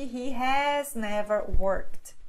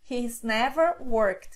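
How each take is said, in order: First: He has is said as two full words. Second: He has is contracted to one syllable. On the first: "que é o mesmo que" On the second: "Aqui está na forma contraída"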